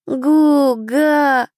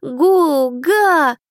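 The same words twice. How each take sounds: First: Put-on higher, louder happy baby sound; a small child answering with joy; toddler babble. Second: Put-on higher, louder baby exclamation; a baby shouting for attention; toddler exclaiming. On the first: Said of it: "ответил маленький, радостно". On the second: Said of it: "воскликнул ребёнок". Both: A narrator's reading.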